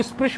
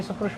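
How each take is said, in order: First: स्पृश with s run straight into p; common pronunciation of स्पृश. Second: स्पृश with the initial s sounded separately; recommended pronunciation of स्पृश. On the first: Teacher showing how many people say it, स्पृश as "sprish". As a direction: say स्पृश as one cluster, "sprish". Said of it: "लेकिन सकार का उच्चारण करना चाहिए". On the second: Teacher correcting students' sound, स्पृश with a distinct "sa". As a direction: say स्पृश as "sa-prish". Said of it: "सकार का उच्चारण करना चाहिए". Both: Shown as a demonstration.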